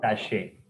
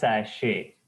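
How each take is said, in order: First: The final T sound is silent. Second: The final T sound is silent.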